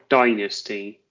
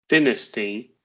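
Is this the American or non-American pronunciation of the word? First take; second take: American; non-American. First: It is said with an American pronunciation. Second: It is said with a non-American pronunciation.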